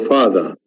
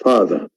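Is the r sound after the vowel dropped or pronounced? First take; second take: dropped; dropped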